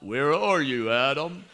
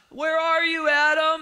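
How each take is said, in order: First: It is said in a deeper voice. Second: It is said in a high voice.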